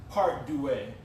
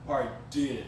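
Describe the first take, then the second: First: "deux" said as "doo-ay"; botched French "deux" ending in "ay"; mispronounced French. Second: "de" as one short syllable; French "deux" attempted in one syllable; corrected French. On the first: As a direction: say "deux" in two syllables, doo-AY. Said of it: "you're still saying it wrong". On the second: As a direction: say "de" as a single "duh"-like sound. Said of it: "I think it's de". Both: Real, not acted.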